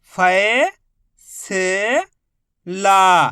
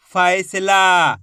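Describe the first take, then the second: First: फै-से-ला dragged out slowly, each syllable held apart. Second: फैसला said as one joined word, still slow; joined slowly. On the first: Teacher sounding out a word very slowly for children, syllable by syllable. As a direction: stretch फै-से-ला into long separate beats. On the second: Teacher joining the syllables into one word, slowly. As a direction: blend फैसला together at a careful pace. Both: Shown as a demonstration. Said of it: "तो मिलके बन जाएगा".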